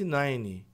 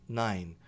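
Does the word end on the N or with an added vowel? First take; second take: added vowel; N ending. First: An extra vowel sound follows the N. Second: The word ends cleanly on the N sound. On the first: The speaker calls it wrong. "Só que essa pessoa disse nine" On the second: The speaker calls it right. "O som morre aqui no N"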